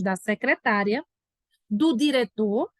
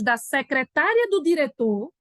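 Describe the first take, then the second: First: A pause comes after 'secretária'. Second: No pause comes after 'secretária'. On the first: The secretary and the director are two separate people. "Todo mundo entendeu pela leitura da pontuação?" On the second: She is the director's secretary, so only one person. "Vamos imaginar que esse texto aí está sem vírgula. Então ficaria assim, ó. Presta atenção"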